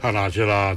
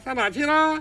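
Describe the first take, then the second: First: It is low, chest-resonant and breathy. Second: It is high and resonates in the head.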